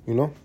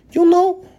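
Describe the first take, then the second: First: Said in the usual way. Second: Very high, loud mock scream. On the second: Comedian imitating screaming crazy talkers, mock scream. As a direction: screech it like a crazy person. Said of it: "Talk like screaming crazy people".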